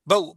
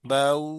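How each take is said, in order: First: The glide is cut off with a jerk. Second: The glide is soft and smooth. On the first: The speaker calls it wrong. "इसमें झटका भी नहीं देना ... इस इस तरह नहीं करना" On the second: The speaker calls it right. "नरमी से अदा करना चाहिए"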